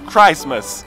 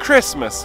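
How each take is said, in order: First: The first vowel is long, like in Christ. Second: The first vowel is short, unlike in Christ. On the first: The speaker calls it wrong. "não Christmas" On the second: The speaker calls it right. "eu pronuncio com som de Christmas"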